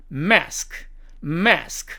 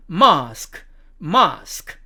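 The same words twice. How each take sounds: First: American "mask", front a; American demo of "mask"; American accent. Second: British "mask" with long ah; British demo of "mask"; British accent. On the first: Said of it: "미국식 발음으로는". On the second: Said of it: "영국식 발음으로 가면". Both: Shown as a demonstration.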